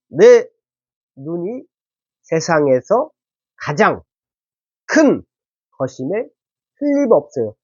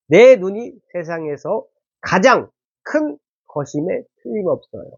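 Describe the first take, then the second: First: It is read slowly and calmly. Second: It is read at a quicker, less careful pace. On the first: The speaker calls it right. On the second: The speaker calls it wrong.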